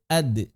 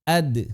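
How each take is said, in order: No difference in how they are said.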